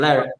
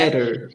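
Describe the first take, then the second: First: The T in the middle is dropped. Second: The T in the middle is clearly pronounced. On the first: The speaker calls it right. "you don't pronounce the T at all" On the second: The speaker calls it wrong. "you don't say let, letter"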